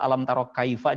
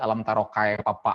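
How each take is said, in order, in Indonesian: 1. Kata kaifa diucapkan dengan bunyi F. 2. Kata kaifa diucapkan dengan bunyi P.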